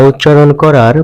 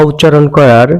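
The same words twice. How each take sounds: The two takes are said the same way.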